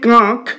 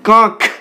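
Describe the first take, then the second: First: The final k is said without a breath puff. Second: The final k is said with a breath puff. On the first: "রয়েছে কাঁক" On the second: "উচ্চারিত হচ্ছে কাঁক, খ উচ্চারিত হচ্ছে"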